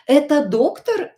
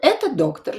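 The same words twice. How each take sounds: First: The intonation is that of a question. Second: The intonation is that of a statement. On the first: Is this a doctor? "Or it can be a question" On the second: This is a doctor. "It can be a statement"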